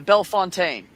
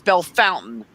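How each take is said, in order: First: The second part sounds like 'fontaine'. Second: The second part sounds like the word 'fountain'. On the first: The speaker calls it right. "it was B E L L E F O N T A I N E" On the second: The speaker calls it wrong. "they'd say no, it's Bell Fountain"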